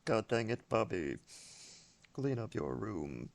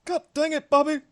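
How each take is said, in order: First: Low, quiet cartoon-dad scolding; Hank Hill. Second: High-pitched exasperated cartoon-dad cry; Hank Hill. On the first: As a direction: grumble it low and soft at the kid, slowing at the end. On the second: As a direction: scold the kid way up in pitch. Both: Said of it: "more Hank Hill quotes".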